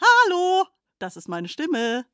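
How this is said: The sentence is spoken in a happy tone. "Bitte sprechen Sie diesen Satz nun fröhlich"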